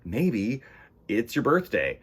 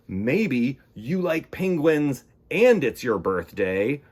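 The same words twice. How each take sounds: First: Said in the usual way. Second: Excited. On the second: Shown as a demonstration.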